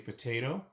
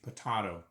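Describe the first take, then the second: First: The word is said in an American accent. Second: The word is said in a British accent. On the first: "Like in the United States, they say potato" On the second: "In the United Kingdom, they say potato"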